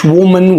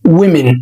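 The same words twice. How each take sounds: First: "woman" as the mistaken version, slowly; wrong pronunciation. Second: "women" as "wimin", lower; correct pronunciation. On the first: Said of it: "مش woman". (النطق الغلط woman) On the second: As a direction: give the right "women". (النطق الصح women) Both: Shown as a demonstration.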